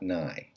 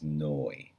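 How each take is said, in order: First: The vowel is 'ai', as in 'eye'. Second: The vowel is 'oi', as in 'boy'. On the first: The speaker calls it wrong. "not nai" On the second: The speaker calls it right. "the last syllable is noi"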